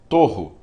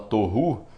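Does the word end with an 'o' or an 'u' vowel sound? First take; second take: o; u. First: The word ends with an 'o' vowel. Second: The word ends with an 'u' vowel. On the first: People reading Hebrew today pronounce it this way. "a entonação que eles usam é torro" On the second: Some people pronounce it this way. "Tem gente que fala torru"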